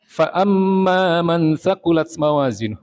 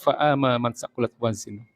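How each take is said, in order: First: The n sound carries a held nasal hum. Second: The n sound has no held nasal hum. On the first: The speaker calls it right. "Gunnah juga begitu" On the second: The speaker calls it wrong.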